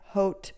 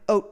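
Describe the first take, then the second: First: The word begins with an audible H sound. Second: The word begins with no H sound. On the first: The speaker calls it wrong. "I keep saying the H" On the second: The speaker calls it right. "I don't think you do"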